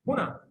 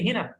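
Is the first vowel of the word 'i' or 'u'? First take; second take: u; i. First: The first vowel is an 'u' sound. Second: The first vowel is an 'i' sound.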